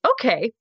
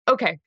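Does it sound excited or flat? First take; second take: excited; flat. First: It is said excitedly, rising at the end. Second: It is said flatly, without emotion.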